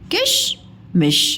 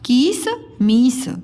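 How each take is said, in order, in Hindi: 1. i स्वर छोटे रखे जाते हैं। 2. i स्वर लंबे खींचे जाते हैं। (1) "इनके उच्चारण में कम समय लगता है" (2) "कीस मीस बोलते हो कि किश मिश बोलते हो?"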